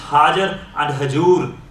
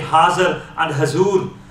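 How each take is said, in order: First: The middle consonant is a j sound. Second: The middle consonant is a z sound. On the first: The words are read as written in Gurmukhi. The speaker calls it right. "the pure part, the correct part is Hajar and Hajur" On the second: The words follow the source language. The speaker calls it wrong. "it depends on the language. So we might have to say Hazar and Hazur"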